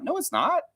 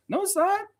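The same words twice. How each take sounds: First: Mock indignant denial. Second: Higher mock denial. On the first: Rejecting a viewer's comparison. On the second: Repeating the denial even higher. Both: Real, not acted.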